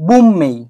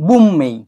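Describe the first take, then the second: No difference in how they are said.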